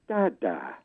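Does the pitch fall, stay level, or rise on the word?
fall. The pitch falls on the word. It is a statement. "with a falling tone"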